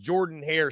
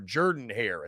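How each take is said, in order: First: The first vowel sounds like 'or'. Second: The first vowel sounds like 'er'. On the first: The speaker calls it wrong. "correcting myself already" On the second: The speaker calls it right. "as it's better known as"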